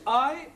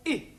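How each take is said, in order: First: I as the letter's name, "eye"; long I. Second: I said "ih", as in fit; short I. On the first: Teacher showing students both sounds, long I. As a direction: say I to rhyme with my. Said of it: "This is usually pronounced". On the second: Teacher showing students both sounds, short I. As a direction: say I with the short vowel of sit. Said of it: "example of the I sound". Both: Shown as a demonstration.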